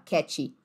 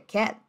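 First: An extra vowel follows the final T sound. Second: The word ends on the T with no vowel. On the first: The speaker calls it wrong. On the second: The speaker calls it right.

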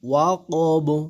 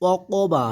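First: The word ends on the consonant 'b'. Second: The word ends with a final 'a' vowel. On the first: The reciter stops on this word. "আর উচ্চারণে কি আসবে" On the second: The word is read as written, without stopping. "বা অকবা আছে"

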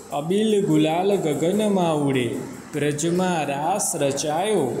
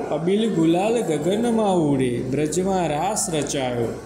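The two takes are said the same way.

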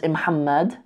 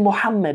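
First: The name starts with a short i sound. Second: The name starts directly with the m sound.

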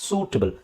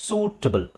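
The two takes are said the same way.

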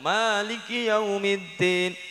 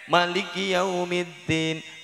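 First: The vowel after the m is long. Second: The vowel after the m is short. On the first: "kemudian mimnya panjang" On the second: "Mimnya pendek"

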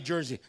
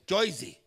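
First: It is said in a standard, general accent. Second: It is said in a local New Jersey accent. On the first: This is not how locals say it. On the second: This is how locals say it.

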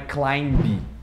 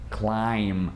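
First: The word ends with a b sound. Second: The word ends with an m sound. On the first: The speaker calls it wrong. "Não é climb" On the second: The speaker calls it right. "o B não é falado"

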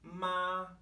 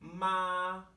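Both takes have the same delivery.

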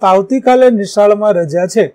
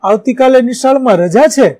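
First: It is said as a calm, plain statement. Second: It is said as an excited exclamation. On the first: It simply gives information. "બીજું વિધાન વાક્ય છે" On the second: It expresses surprise or strong feeling. "ત્રીજું ઉદ્ગાર વાક્ય છે"

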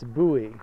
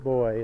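First: The word sounds different from 'boy'. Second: The word sounds exactly like 'boy'. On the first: The speaker calls it right. "it's buoy" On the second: The speaker calls it wrong. "you don't pronounce it boy"

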